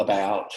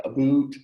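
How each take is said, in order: First: "about" with his own Alabama ow vowel; Southern about. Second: "a boot" said Canadian style, with a long oo like boot; Canadian about. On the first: Shown as a demonstration. Contrasting the Canadian word with his own Southeastern "about". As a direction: say "about" the way he says it himself, ow as in cow. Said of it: "I would say it". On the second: Retold or imitated. Teasing Canadian ergonomists by imitating their accent on "a boot". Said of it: "picking up Canadian accent right here".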